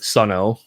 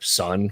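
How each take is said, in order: First: The name ends with an added O sound. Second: The name ends without any O sound. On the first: The speaker calls it wrong. "it's not Sun O" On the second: The speaker calls it right. "the O isn't really supposed to be an O"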